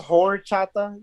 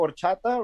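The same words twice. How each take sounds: First: It is said anglicized, with the first syllable emphasized. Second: It is said with a native Spanish pronunciation. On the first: The speaker calls it wrong. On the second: The speaker calls it right. "Which is like rice water in Spanish"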